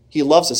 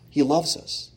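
First: He loves us said at full voice with weight on loves; firm affirmation. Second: He loves us said softly, almost to himself; soft, intimate. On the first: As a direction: lift the voice and land hard on loves. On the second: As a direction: drop the voice softer for He loves us. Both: Real, not acted. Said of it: "repeated line said two ways".

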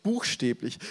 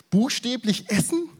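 First: Said in the usual way. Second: Aghast question. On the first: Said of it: "wie heißt das auf Deutsch?". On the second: Retold or imitated. Crowd aghast at eating flesh.

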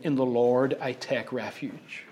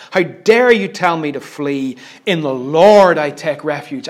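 First: Low, softened, gentle delivery; quiet and soft. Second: Forceful, indignant declaration; angry yelling. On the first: Retold or imitated. David on a grassy hillside with his harp, quietly. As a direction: say it softly, as to a harp. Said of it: "quietly, softly singing". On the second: Acted. David answers those telling him to flee, angrily. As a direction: throw it back in defiance. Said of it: "He is yelling this".

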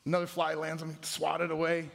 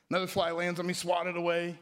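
No difference in how they are said.

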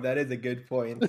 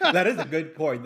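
First: Said in the usual way. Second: Laughing. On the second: Real, not acted.

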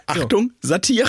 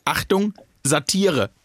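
First: Slow, high, loud announcer call; jingle announcement. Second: Mock warning label. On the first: Pretend. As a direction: sing it out like a warning jingle. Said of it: "das mache ich jetzt bei allem". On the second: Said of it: "wo in Klammer hinten dran steht".

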